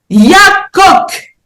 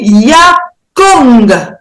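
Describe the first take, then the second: First: The word ends with a k sound. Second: The word ends with an ng sound. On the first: "le que peut devenir nge" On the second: "peut se lire aussi yakong"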